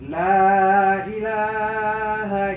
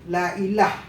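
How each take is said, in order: First: The final vowel after the h is pronounced. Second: The word ends on h with no vowel. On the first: The speaker calls it right. "hendaknya dibaca kalimat La ilaha illallah, itu dengan baik" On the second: The speaker calls it wrong. "Atau dimatikan ha, itu juga tidak boleh"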